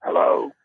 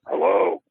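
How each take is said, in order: First: A voiced, slightly put-on hello; caught-out young musician, second try at a mock disguised hello. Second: Breathy, unvoiced hello meant to hide who is speaking; caught-out young musician answering the phone, disguising his voice; disguised voice. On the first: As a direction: answer in a mild fake voice to hide who you are. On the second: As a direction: answer the phone in a fake whisper so you won't be recognised. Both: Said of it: "I try to disguise my voice".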